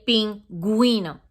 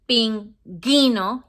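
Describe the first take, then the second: First: The u after the g is sounded. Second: The u after the g is silent. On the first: The speaker calls it right. "you say pingüino" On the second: The speaker calls it wrong. "you don't say pinguino"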